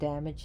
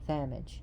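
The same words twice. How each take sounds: First: The word begins with a hard d sound. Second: The word begins with a soft th-like sound. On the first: "Instead of saying damage" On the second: "imagine saying they, as in day"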